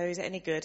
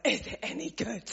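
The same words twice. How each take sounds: First: Said in the usual way. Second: Higher, disbelieving repeat of the question; mock astonishment at the question; incredulous echo. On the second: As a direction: echo it back as if it can't be real.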